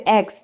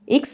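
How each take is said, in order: First: "एक्स" said as "eks", open e; "ex" sound. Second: "एक्स" said as "iks", short i; "ix" sound. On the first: Teacher showing students the changed sound, "एक्स" pronounced "eks". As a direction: give "एक्स" an open "e" opening. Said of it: "यहाँ पे एक्स". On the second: Teacher recalling exchange's first sound, "एक्स" pronounced "iks". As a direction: give "एक्स" a short "i" opening. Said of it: "एक्स था, एक्सचेंज". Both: Shown as a demonstration.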